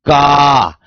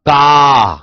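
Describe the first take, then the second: Both takes have the same delivery.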